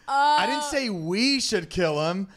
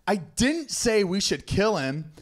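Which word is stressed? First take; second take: we; didn't. First: The stress falls on the word 'we'. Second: The stress falls on the word 'didn't'.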